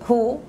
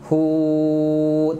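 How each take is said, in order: First: The vowel is held short. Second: The vowel is drawn out long. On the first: The speaker calls it right. "hu ni hu" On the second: The speaker calls it wrong. "jangan baca hu, tak perlu panjang"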